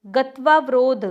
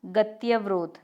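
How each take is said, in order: First: गत्वावरोध with "tvaa"; incorrect form. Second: गत्यवरोध with short "tya"; correct form. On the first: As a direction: say गत्वावरोध as "gatvaa-varodh". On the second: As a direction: say गत्यवरोध as "gatya-varodh". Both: Shown as a demonstration. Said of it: "कैसा होगा?".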